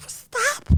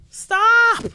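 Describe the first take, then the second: First: A much higher, soft, squeaked "Stop."; squeaky stop. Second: A high, loud "Stop." shouted in disbelief. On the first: After laughing, a soft high plea to Jada, squeaked. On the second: Commentator yelling at Jada to quit the book, high and loud. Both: Real, not acted.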